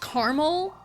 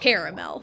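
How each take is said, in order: First: It is said with a Midwest pronunciation. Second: It is said with a non-Midwest pronunciation.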